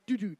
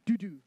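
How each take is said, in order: First: Loud sung doo-doo as a changeover signal; buzzer sound. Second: Doo-doo pushed out even louder; louder buzzer sound. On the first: Announcer demonstrating the changeover signal to the crowd, loud buzzer doo-doo. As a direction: mimic the match buzzer. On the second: Announcer finishing the changeover signal demo for the crowd, louder buzzer doo-doo. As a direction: hit the second buzz hard. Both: Shown as a demonstration. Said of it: "I'll be making the sounds".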